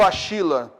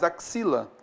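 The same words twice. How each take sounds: First: The x is not sounded as ks. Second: The x is sounded as ks. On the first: The speaker calls it wrong. "Eu não falo axila" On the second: The speaker calls it right. "mas axila"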